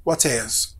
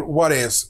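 First: Whatevs in a British accent with a crisp t, lower and softer. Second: American accent. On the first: Teacher contrasting it with American speech, British accent. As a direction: say "whatevs" the British way, clearly sounded t, pitched down. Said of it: "بالبريتش accent". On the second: Teacher showing learners the American pronunciation, American accent. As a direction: say "whatevs" the American way, t almost like a quick d. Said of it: "باللهجة الأمريكية أقول". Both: Shown as a demonstration.

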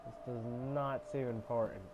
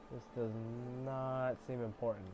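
The two takes are said the same way.

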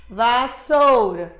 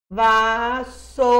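First: "vassoura" lento, sílabas separadas; soletrando devagar. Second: "Vassoura" bem lento, sílaba por sílaba; soletrando devagar. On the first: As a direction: marca cada sílaba de "vassoura". ("vassoura" devagar, marcando as sílabas) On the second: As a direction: arrasta cada sílaba de "Vassoura". ("Vassoura" devagar, sílaba por sílaba) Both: Shown as a demonstration. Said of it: "batendo na pauta".

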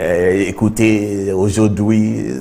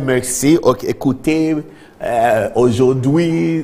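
First: Very slow, halting French words; mock clumsy French attempt; stumbling schoolboy French. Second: Slow, drawn-out mock French address; lightly hammed-up presidential French; imitating the president's French. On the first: Shown as a demonstration. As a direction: drag out the French like you never learned it. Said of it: "We cannot say". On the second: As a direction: put on the president's careful French. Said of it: "He said".

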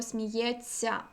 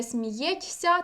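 First: Сміється with тьс merged into soft цьця; long soft ts. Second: Сміється as written, ть then ся; t and s separate. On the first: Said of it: "транскрипції пишемо". (сміється як сміјецьця, з довгим ць) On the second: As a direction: keep ть and ся apart in сміється. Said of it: "не". (сміється з окремими ть і ся) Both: Shown as a demonstration.

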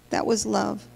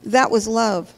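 First: Softer, dropped to a near hush; hushed repeat. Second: Said in the usual way. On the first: Acted. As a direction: let the words sink in quietly. Repeats line, second time hushed.

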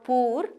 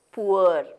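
First: Poor with one pure oo, "poor" as "pooor"; wrong pronunciation. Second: Poor in a glide, "poo-er"; correct pronunciation. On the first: Teacher showing the common mistake, mispronounced. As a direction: say poor without a glide. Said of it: "It is not poor". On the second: Teacher giving the correct pronunciation, clearly modelled. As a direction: make poor rhyme with sure, "poo-uh". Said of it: "the correct pronunciation is". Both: Shown as a demonstration.

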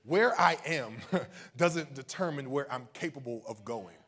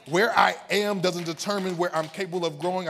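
First: Said in the usual way. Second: Loud, raised preaching declaration; not somber. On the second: Real, not acted. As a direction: drive it out to rouse the congregation. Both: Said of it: "we're not just gonna be somber".

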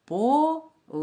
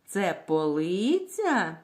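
First: Полиця split as по, ли, ця with pauses; syllable-by-syllable teacher demo of полиця. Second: Drawn-out question stressing the middle syllable of полиця. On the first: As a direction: break полиця into three separate syllables. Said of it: "Давайте вимовимо слово по складам". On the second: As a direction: ask it with a long ЛИ in полиця. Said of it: "Запитаємо". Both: Shown as a demonstration.

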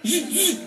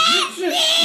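First: Buzzing zzz saw noise; saw sound. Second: Much higher shouted zzz; hyping kids to buzz louder. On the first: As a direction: buzz like a saw cutting wood. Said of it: "what kind of sound does it make". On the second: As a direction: yell the saw sound to win the contest. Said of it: "really loud 'cause it's gonna be a contest". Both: Shown as a demonstration.

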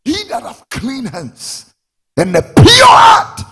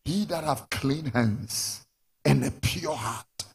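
First: Slow, high shout building in force; preacher's shout. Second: Said in the usual way. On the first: Real, not acted. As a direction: build to a full-throated pulpit cry. Verse repeated at full force.

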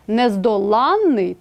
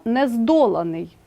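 First: "нездоланний" stressed on ЛАН, long н; stress on suffix. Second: "нездоланий" stressed on ДО, single н; stress on root. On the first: Teacher contrasts adjective with participle, stressing ЛАН in нездоланний. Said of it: "із наголосом на суфіксі". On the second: Teacher contrasts participle with adjective, stressing ДО in нездоланий. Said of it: "з наголосом на корені". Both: Shown as a demonstration.

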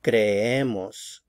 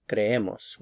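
First: "Creemos" slowly as cre-E-mos; careful, drawn-out cre-E-mos for "Creemos"; stress on middle syllable. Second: Said in the usual way. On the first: Shown as a demonstration. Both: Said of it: "stress right here".

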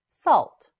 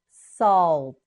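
First: Said in the usual way. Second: "Salt" stretched, final t set apart; slow modelling. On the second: Shown as a demonstration. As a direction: draw out "Salt", then release the t. Teacher models word slowly.

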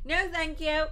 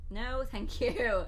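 First: Higher, louder "No, thank you" with stress on "No"; emphatic loud refusal. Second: Slow, drawn-out "No, thank you"; slow polite refusal. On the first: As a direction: punch the "No" firmly. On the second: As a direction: decline it slowly and carefully. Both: Shown as a demonstration.

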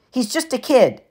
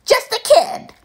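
First: Lightly voiced poker buddy, mild; calm him down casually; Eddie. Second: Much higher, sneering mimic; mocking falsetto. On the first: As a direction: friend Eddie telling Gabe to ease off. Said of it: "his friend Eddie interrupted". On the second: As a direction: parrot his friend in a squeaky voice. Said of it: "mimicked in a falsetto voice". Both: A narrator's reading.

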